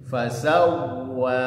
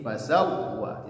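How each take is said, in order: First: The w sound flows freely and is lengthened. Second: The w sound is held back and cut off. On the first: The speaker calls it right. "wanya dibaca dua harokat" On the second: The speaker calls it wrong. "jangan sampai tertahan seperti ini"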